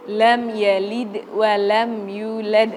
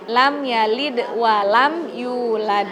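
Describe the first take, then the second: First: Lam yalid wa lam yulad with a heavy l; wrong reading. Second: Lam yalid wa lam yulad with a light lam; plain la. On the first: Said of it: "dia baca gini". (bacaan salah, lam ditebalkan) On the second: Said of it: "La biasa aja". (bacaan benar, la biasa) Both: Shown as a demonstration.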